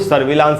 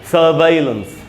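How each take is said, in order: First: The second syllable sounds like 'vi'. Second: The second syllable sounds like 'vai'. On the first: The speaker calls it wrong. "सर्विलांस नहीं होगा" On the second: The speaker calls it right. "इसका pronunciation है सर्वाइलेंस"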